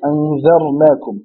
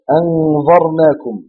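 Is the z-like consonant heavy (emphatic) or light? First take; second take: light; heavy. First: The z-like consonant is light, not emphatic. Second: The z-like consonant is heavy and emphatic. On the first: We have warned you. The speaker calls it right. "Au lieu de dire anzarnakum" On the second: We have shown you. The speaker calls it wrong. "beaucoup de personnes prononcent ce zal en va"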